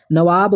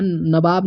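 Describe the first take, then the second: First: नवाब spoken with v, not b; correct form. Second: नवाब said as nabab with b; नवाब with b instead of v; wrong form. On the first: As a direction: say नवाब as nawab. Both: Shown as a demonstration. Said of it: "नवाब नहीं".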